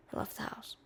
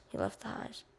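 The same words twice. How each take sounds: First: Whispered, no voice. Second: Soft, nearly unvoiced; quiet. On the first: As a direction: breathe the words out. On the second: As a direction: let it fade out. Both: Shown as a demonstration.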